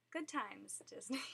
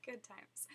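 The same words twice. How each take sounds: First: Said in the usual way. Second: Soft laughing whisper. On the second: Real, not acted. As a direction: breathe it out with a laugh. Whispered repeat after laugh.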